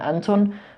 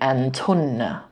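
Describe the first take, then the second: First: The word ends on a bare consonant sound. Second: The word ends with an added vowel sound. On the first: The speaker calls it wrong. "That's the common mistake. Don't do that" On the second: The speaker calls it right. "we say antunna"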